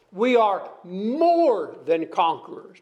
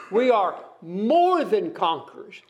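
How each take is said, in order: First: Said in the usual way. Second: "more" leaned on hard, falling after; stress on more. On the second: Shown as a demonstration. Preacher insisting to congregation, stress on "more". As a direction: hit the word "more". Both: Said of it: "Not just conquerors".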